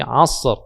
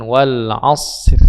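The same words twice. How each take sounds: First: Asr with a thick, heavy ra. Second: Asr with the ra turning thin at the end; wrong thin ra. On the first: Teacher demonstrating the correct heavy ra. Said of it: "ra-nya dibaca tebal". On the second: Teacher demonstrating the wrong thin ra. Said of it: "tiba-tiba tipis". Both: Shown as a demonstration.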